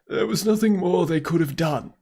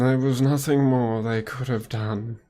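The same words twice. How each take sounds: First: It is said in a put-on old man's voice. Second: It is said in a slow, sneering drawl. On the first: "I'll just do an old man voice" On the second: "that's kind of Snape-like. Don't really like it all too much"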